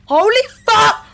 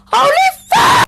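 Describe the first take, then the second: First: Said in the usual way. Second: Startled higher yelp; higher shocked yell. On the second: Real, not acted. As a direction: shout it in shock. Shocked at urn.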